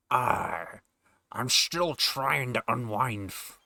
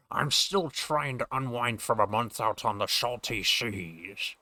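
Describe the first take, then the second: First: Slow Scottish pirate drawl; slow, Connery-style old sailor; Sean Connery pirate. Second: Slow Scottish sailor, sh for s; Sean Connery pirate. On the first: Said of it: "a fucking blending of A I voices". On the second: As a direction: say the s sounds as sh, slowly. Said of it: "Sean Connery aspect of me doing this voice". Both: Acted.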